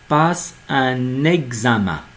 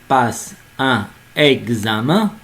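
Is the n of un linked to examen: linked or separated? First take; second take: linked; separated. First: The n of un is linked to examen. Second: The n of un is not linked to examen. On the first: The speaker calls it right. "on doit dire" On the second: The speaker calls it wrong. "on ne peut pas dire"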